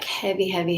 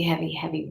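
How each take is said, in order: First: Breathy whisper of heavy, heavy; hushed whisper heavy, heavy. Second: Said in the usual way. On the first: Real, not acted. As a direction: whisper heavy, heavy as if feeling weight. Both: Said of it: "heavy, heavy repeated".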